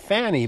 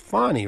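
First: The first vowel sounds like the vowel in 'fan'. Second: The first vowel sounds like the vowel in 'fond'. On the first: The speaker calls it wrong. "People might automatically say Fanny" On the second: The speaker calls it right. "but it's Fonny"

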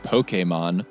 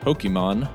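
First: The word is pronounced in a careful, precise way. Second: The word is pronounced in a casual, everyday way.

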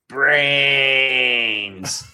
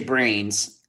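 First: The vowel is stretched out very long. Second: The word is said normally, vowel short.

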